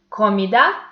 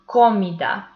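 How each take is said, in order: First: The stress is on the last syllable. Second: The stress is on the first syllable. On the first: "putting more intensity into this last syllable" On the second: "putting more intensity into the first syllable"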